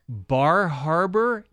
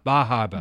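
First: It is said in a plain accent, r pronounced. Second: It is said in a Maine accent, r dropped.

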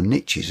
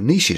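First: It is said with an American pronunciation. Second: It is said with a French-style pronunciation. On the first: The speaker calls it wrong. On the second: The speaker calls it right.

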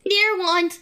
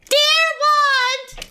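First: It is spoken at a normal volume. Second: It is spoken very loudly, almost shouted.

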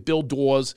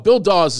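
First: It is said in a Philadelphia accent. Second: It is said in his plain accent.

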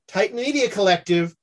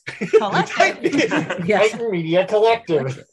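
First: The word collective is said in a normal voice. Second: The word collective is said in a put-on voice.

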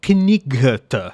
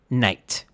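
First: Every letter is sounded, including the initial k. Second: The initial k is silent, starting with n. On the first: The reader sounds out each letter of the spelling. "pronouncing each letter as a separate sound" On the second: The reader knows the spelling is only a convention. "It was actually pronounced"

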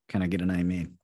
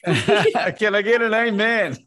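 First: The phrase is said at normal volume. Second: The phrase is said loudly.

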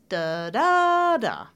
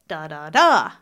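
First: The stress falls on the second syllable. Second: The stress falls on the third syllable. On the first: "second syllable now. It's going to sound like this" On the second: "What if the stress in a three-syllable word is on the third syllable? It'll sound like this"

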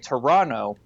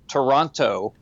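First: The second T sound is dropped. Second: The second T sound is clearly pronounced. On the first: The speaker calls it right. "They drop that second T" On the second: The speaker calls it wrong. "that's not how people from Toronto say it"

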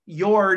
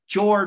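First: The name is said with a Norwegian pronunciation. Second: The name is said with an American pronunciation. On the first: "pronounced Jord in Norwegian" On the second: "maybe like Jord or Ford from the standpoint of U.S"

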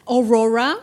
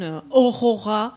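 First: The name is said with an American accent. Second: The name is said with a French accent. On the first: "and there they said Aurora, something like this" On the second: "or they pronounce it like in French pronunciation"

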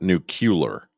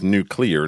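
First: The word is said as nu-cu-lar. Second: The word is said as nu-clear. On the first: The speaker calls it wrong. "not nuclear. There's only one U in that word" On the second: The speaker calls it right. "it's nuclear"

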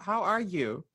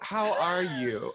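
First: It is asked in a casual, ordinary way. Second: It is asked slowly with deep, intense sincerity.

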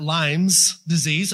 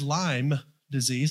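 First: Lyme is said with an added s sound. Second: Lyme is said without an added s sound. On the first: The speaker calls it wrong. "I put the Southern S on it" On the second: The speaker calls it right. "not Lyme's disease"

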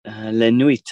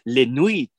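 First: It is said in a plain English accent. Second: It is said in a put-on French accent. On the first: The speaker calls it wrong. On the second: The speaker calls it right.

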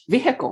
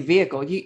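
First: The h in the middle is clearly pronounced. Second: The h in the middle is silent. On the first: "You actually say the H" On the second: "I just say vehicle"

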